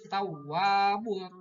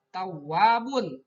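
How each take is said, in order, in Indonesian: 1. Kata itu berakhir dengan bunyi r. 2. Kata itu berakhir dengan bunyi n. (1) "tapi tawwabur rahim" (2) "Tidak tawabun"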